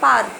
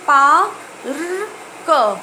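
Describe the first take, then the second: First: The word is said at normal speed. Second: The word is said slowly, sound by sound.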